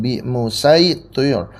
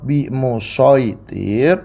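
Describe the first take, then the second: First: The s sound is a plain sin. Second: The s sound is the emphatic sad. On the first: "shadnya diganti sin" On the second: "Yang pertama dibaca dengan biasa, shad"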